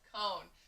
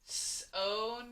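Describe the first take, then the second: First: The word begins with a k sound. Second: The word begins with an s sound. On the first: The speaker calls it right. "let me flip the C" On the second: The speaker calls it wrong. "if you try to say it with the soft C, which says s"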